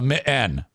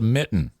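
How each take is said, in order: First: The middle t sound is cut out. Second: The middle t sound is clearly pronounced. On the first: The speaker calls it wrong. "it almost sounds like you're cutting out words" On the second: The speaker calls it right. "That's a mitten"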